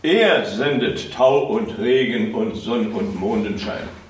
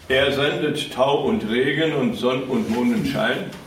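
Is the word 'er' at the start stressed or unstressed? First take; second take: stressed; unstressed. First: The word 'er' is said with strong stress. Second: The word 'er' is said without stress. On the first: The speaker calls it right. "mit neuer Betonung sprechen ... immer mehr wird uns die Abhängigkeit deutlich von ihm" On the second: The speaker calls it wrong.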